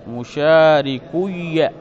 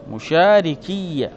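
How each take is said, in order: First: مشاركي said "mushārikuyya", with u before the doubled ya; damma before doubled ya. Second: مشاركي said "mushārikiyya", with i before the doubled ya; damma turned to kasra. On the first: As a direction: draw out مشاركي slowly as "mu-shā-ri-kuy-ya". (مشاركي بضم الكاف وياء مشددة مفتوحة، ببطء) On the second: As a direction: slowly sound مشاركي as "mu-shā-ri-kiy-ya". (مشاركي بكسر الكاف وياء مشددة مفتوحة، ببطء) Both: Shown as a demonstration. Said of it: "وقلبت الضمة كسرة".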